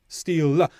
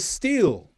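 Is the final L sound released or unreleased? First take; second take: released; unreleased. First: The final L is fully released. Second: The final L is held, not released. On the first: The speaker calls it wrong. "It's not steel" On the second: The speaker calls it right. "I make the first part of the sound, but not the second"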